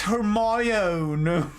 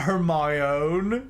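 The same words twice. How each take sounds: First: Hermione stretched very slowly, "her-MY-oh-nee"; drawn-out pronunciation. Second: Hermione slow, ending in "own", "her-MY-own"; rejected pronunciation. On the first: Streamer answering a Hermione accent request, drawn-out pronunciation. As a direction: draw out every part of "Hermione". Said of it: "Say it in a Hermione accent". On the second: Streamer showing the wrong Hermione, rejected pronunciation. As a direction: stretch "Hermione" with its last syllable as "own". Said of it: "Not Hermione". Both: Shown as a demonstration.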